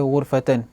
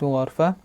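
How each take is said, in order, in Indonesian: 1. Vokal pertama adalah bunyi 'u'. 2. Vokal pertama adalah bunyi 'a'. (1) "bi dhammil ghain, mendhammahkan ain" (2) "baca dengan fathul ghain"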